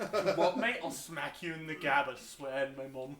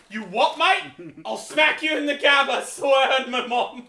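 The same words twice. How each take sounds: First: Put-on quieter British accent with a Scottish or Irish lilt; muted British accent attempt. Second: Put-on loud, high, slow British accent threat; hammed-up British accent. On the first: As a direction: say it softer with a Celtic-sounding British accent. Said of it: "The way you say it sounds different". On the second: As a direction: bark it like a cheeky British kid. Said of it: "this little British kid".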